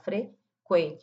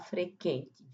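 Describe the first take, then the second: First: The u after the q is pronounced. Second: The u after the q is silent. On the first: The speaker calls it right. "Marca aí o som do U" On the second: The speaker calls it wrong. "não vamos falar frequente"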